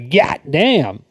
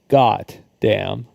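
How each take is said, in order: First: It is said in a southern accent. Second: It is said in a plain accent.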